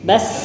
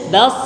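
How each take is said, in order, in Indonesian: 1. Bunyi s tipis, lidah datar. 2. Bunyi s tebal, lidah melengkung. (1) "Ini sin" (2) "Harusnya bas"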